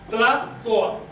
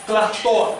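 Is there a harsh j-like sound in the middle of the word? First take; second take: no; yes. First: The middle has no harsh j-like sound. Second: The middle has a harsh j-like sound. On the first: This is the traditional central variety. "En el centro se pronunciaba Tlatoa" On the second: This is the Gulf coast variety. "que se dice Tlactoa, con J"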